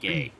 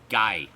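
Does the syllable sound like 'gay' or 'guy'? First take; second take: gay; guy. First: The vowel sounds like the word 'gay'. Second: The vowel sounds like the word 'guy'. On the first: The speaker calls it wrong. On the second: The speaker calls it right. "It is Gaiden. Guy"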